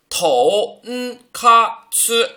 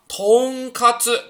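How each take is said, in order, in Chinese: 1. 一个假名一个假名地读，第一个音节听起来是低的。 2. 连起来读的时候，第一个音节听起来是上升的。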